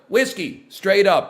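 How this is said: It sounds like an unsure kid with a fake ID.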